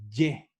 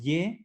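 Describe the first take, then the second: First: The consonant is hard and strong. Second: The consonant is soft and light. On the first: The speaker calls it right. "es ye. Bien duro" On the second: The speaker calls it wrong. "No es ye"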